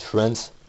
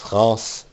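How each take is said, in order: First: It is pronounced the English way. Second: It is pronounced the French way.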